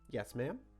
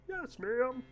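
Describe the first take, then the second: First: It is said in a plain, ordinary voice. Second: It is said in a put-on Cockney, Kermit-like voice.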